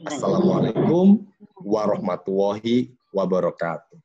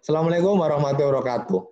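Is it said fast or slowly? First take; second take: slowly; fast. First: It is said slowly and with care. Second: It is said quickly and carelessly.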